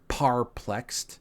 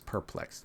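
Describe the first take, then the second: First: The first syllable sounds like 'par'. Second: The first syllable sounds like 'per'. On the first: The speaker calls it wrong. "I tried to mess up some pronunciation" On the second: The speaker calls it right. "correct pronunciation is perplexed"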